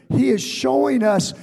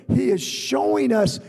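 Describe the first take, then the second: Both takes have the same delivery.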